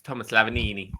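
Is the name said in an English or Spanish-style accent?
Spanish. The name is said with a Spanish-style accent. The speaker calls it right.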